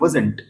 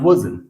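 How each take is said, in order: First: The final t sound is clearly pronounced. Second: The final t sound is dropped entirely. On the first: The speaker calls it wrong. "वो बोलते हैं वजंट" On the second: The speaker calls it right. "टॉ ठॉ डॉ और रॉ को नहीं pronounce करना है"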